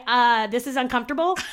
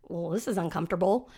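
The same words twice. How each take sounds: First: Incredulous quote. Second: Softer, lower deadpan aside "Well, this is uncomfortable."; deadpan muttered remark. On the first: Friend texting about overheard Zoom remark, incredulous. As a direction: ask "uncomfortable?" as if unable to believe it. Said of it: "she said". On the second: Mom alone on unmuted Zoom call, deadpan aside. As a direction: mutter "uncomfortable" flatly to yourself. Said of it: "I go". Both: Retold or imitated.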